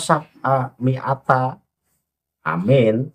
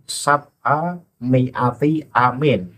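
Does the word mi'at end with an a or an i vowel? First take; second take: a; i. First: The word mi'at ends with an a vowel. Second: The word mi'at ends with an i vowel. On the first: The speaker calls it wrong. "Kalau dibaca sab'a mi'ata amin" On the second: The speaker calls it right. "yang benar adalah"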